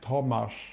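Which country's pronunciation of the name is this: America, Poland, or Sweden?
Poland. The name is said the Polish way. "In Poland, it's like ridiculous. It's like"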